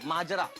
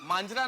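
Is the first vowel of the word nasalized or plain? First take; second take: plain; nasalized. First: The first vowel is plain, with no n sound. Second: The first vowel is nasalized, with an n sound. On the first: The speaker calls it right. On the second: The speaker calls it wrong. "मांजरा नहीं"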